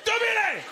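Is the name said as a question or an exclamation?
exclamation. It is said as a loud exclamation.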